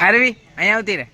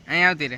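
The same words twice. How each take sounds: First: Loud, high call across the garden. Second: Said in the usual way. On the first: Real, not acted. Uncle calling little Aarvi to come over, loud high call.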